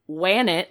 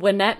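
First: The name rhymes with Janet. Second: The name does not rhyme with Janet. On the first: The speaker calls it wrong. "I wouldn't say Wannet like Janet" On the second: The speaker calls it right. "so Wynette McNeil"

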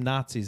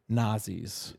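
First: The middle consonant is a 'ts' sound. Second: The middle consonant is a plain 'z' sound. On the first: The speaker calls it wrong. "I'm not calling them Nazis anymore" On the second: The speaker calls it right. "That's how it's spelled. There's no T"

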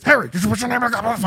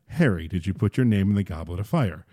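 First: It is said in an agitated, forceful way. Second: It is said calmly and quietly.

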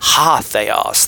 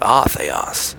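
First: The first word starts with an H sound. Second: The first word starts with a plain vowel. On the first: The speaker calls it right. "pronounce it with an H" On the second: The speaker calls it wrong. "Not ah theos"

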